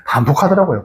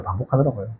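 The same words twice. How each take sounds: First: Said in the usual way. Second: Much softer, lower repeat; quiet echo. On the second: Shown as a demonstration. Preacher repeats the answer to himself, quiet rueful echo. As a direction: let it sink in, almost to yourself. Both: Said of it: "똑같은 실수 반복합니까, 안 합니까?".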